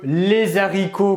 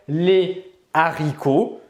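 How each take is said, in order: First: A z sound links les to haricots. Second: No z sound links les to haricots. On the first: The speaker calls it wrong. "cela est faux" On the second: The speaker calls it right. "la bonne prononciation"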